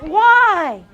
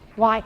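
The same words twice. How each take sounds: First: It is said in a drawn-out, whiny voice. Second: It is said in a plain, ordinary voice.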